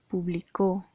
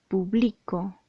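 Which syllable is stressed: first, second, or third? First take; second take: third; second. First: The stress is on the third syllable. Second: The stress is on the second syllable. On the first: It is a past-tense verb: published. "si colocamos el acento en la tercera sílaba" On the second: It is a present-tense verb: I publish. "Si le colocamos el acento en la segunda sílaba"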